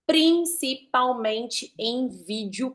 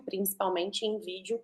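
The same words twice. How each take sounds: First: Slow emphasis. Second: Softly repeated. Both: Shown as a demonstration. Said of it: "velocidade de fala, as pausas".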